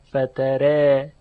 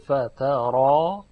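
First: The r is light and the final vowel leans toward 'e'. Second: The r is heavy and the final vowel is open 'a'. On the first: "الف تقلیل می شود و به تبعش حرف را هم ترقیق" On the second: "حرف را که تفخیم می شود و بعد از اون الف هست که به فتح خونده میشه"

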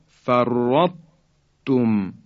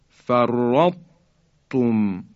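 The two takes are said the same way.

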